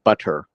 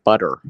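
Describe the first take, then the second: First: The middle T is clearly pronounced. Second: The middle T is silent. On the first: The speaker calls it wrong. "You don't say butter" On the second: The speaker calls it right. "don't pronounce the T"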